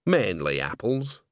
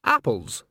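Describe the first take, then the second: First: Slow afterthought with a rising end; qualify it slowly, leaving it open; hedging. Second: Quick, ready answer; "Apples" short, with a falling tune; promptly. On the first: Hedges her prompt answer. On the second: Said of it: "said Nanny Ogg promptly". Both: A narrator's reading.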